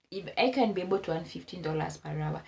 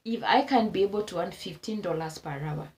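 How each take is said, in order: Both takes have the same delivery.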